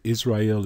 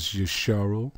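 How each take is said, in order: First: Said in the usual way. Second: "Yisharal" said as yi-sha-ral; Hebrew pronunciation. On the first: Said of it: "Israel is wrong". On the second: Shown as a demonstration. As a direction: sound out each part of "Yisharal". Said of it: "It is Yisharal".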